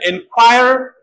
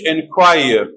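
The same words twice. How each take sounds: First: It is said in an American accent. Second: It is said in a British accent.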